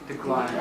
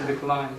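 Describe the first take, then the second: The two takes are said the same way.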